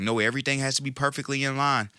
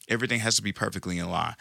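First: Higher, fast mocking perfectionist; whiny fussy perfectionist quote. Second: Said in the usual way. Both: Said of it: "those people that just sit and say".

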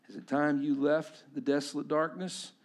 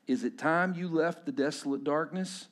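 No difference in how they are said.

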